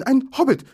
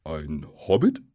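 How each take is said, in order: First: Very high, loud, frightened squeak; frightened Bilbo. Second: Low, slightly louder question, rising; puzzled troll with a touch of alarm; slightly startled troll. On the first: Captured hobbit telling trolls what he is, frightened. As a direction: blurt it out in fear. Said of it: "sagte der arme Bilbo und klapperte mit den Zähnen". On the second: Troll repeating the hobbit's word, slightly startled question. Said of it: "ein bisschen erschrocken". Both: A narrator's reading.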